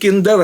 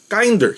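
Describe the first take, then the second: First: The first vowel sounds like in 'kin'. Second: The first vowel sounds like in 'kind'. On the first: It refers to kindergarten. The speaker calls it wrong. "hindi kinder ha" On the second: It means more kind. The speaker calls it right. "meaning mas maayos, mas marespeto, mas mabait, mas uh, kind"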